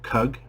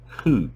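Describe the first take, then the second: First: The word starts with a k sound. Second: The word starts with an h sound. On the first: The speaker calls it wrong. "not chug or cug" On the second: The speaker calls it right. "but Hug"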